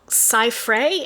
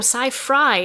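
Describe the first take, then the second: First: The last syllable rhymes with 'day'. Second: The last syllable rhymes with 'die'. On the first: This is how other people say the name. The speaker calls it wrong. "It's always funny when people are like" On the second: This is how the owner says the name. The speaker calls it right.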